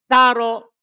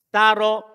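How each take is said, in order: The two takes are said the same way.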